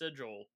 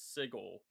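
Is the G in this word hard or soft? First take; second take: soft; hard. First: The G is soft, like a J. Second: The G is hard, like in go. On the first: The speaker calls it wrong. "I'm pretty sure it is pronounced Sigil" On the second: The speaker calls it right. "Sigil with a hard G"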